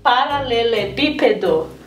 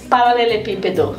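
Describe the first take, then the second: First: The word is said slowly. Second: The word is said at normal speed.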